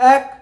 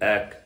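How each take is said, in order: First: The word is voiced high, resonating in the head. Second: The word is voiced low and deep from the belly. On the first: "মাথা থেকে বলছি" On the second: "পেট থেকে বলছি"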